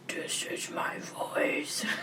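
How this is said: The voice is deep and growling. "like a big, low growl"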